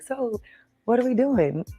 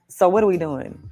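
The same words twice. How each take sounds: First: It is said in a gentle, casual tone. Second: It is said in a demanding, confrontational tone.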